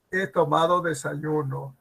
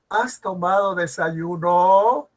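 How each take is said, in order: First: Plain statement with "desayuno" dropping at the end; descending statement intonation. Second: Slow question, "desayuno" climbing at the end; rising question intonation. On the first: Teacher shows descending intonation of an answer, falling ending on "desayuno". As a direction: bring the pitch down to finish on "desayuno". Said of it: "La entonación es descendente". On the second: Teacher shows ascending intonation of a question, rising ending on "desayuno". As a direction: stretch it out and lift "desayuno" upward. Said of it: "tiene entonación propia ascendente".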